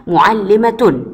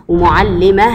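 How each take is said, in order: First: معلمة said as mu'allimatun, with sounded t; full case ending on معلمة: mu'allimatun; connected form with t. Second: ومعلمة said as wa-mu'allimah, ending in h; pausal form with h. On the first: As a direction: end معلمة on a clear "-tun". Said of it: "الكلمة التانية معلمة عند الوصل". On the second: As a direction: stop on ومعلمة with a breath of h for ة. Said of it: "عند الوقف". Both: Shown as a demonstration.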